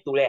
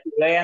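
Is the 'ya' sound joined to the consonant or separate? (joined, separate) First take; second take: joined; separate. First: The ya is joined to the preceding consonant. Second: The ya is said as a separate syllable. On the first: The speaker calls it right. "तुळ्या बरोबर, यला जोडलाय" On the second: The speaker calls it wrong. "त्या तुळया नाहीये"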